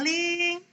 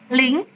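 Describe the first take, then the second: First: The pitch stays level through the word. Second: The pitch rises through the word. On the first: "datar dia" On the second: "satu atau dua? ... dua, ... betul"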